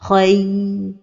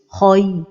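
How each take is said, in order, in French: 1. La transition vocalique est tenue trop longtemps. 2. La transition vocalique est prononcée lourde et emphatique. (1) "donner beaucoup de temps à la lettre ligne" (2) "emphatiser les lettres lignes comme ceci"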